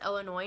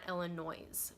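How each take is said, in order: First: The word ends without an S sound. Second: The word ends with an audible S sound. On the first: The speaker calls it right. "it's pronounced Illinois" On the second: The speaker calls it wrong. "a lot of people say it with the S at the end"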